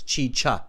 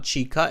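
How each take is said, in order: First: The second syllable begins with a ch sound. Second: The second syllable begins with a k sound. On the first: The speaker calls it right. "It's both cha. Chi. ... It's chicha" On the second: The speaker calls it wrong. "It's not chica"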